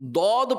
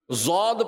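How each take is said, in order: First: It is said with an Arabic-style emphatic sound. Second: It is said with an Urdu-style z sound. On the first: The speaker calls it right. "دود پڑھنا یہ عربی لہجہ ہے" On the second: The speaker calls it wrong. "زود پڑھنا یہ اردو لہجہ ہے"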